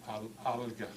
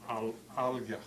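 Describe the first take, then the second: The two takes are said the same way.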